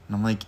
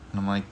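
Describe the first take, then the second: No difference in how they are said.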